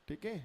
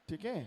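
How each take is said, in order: Both takes have the same delivery.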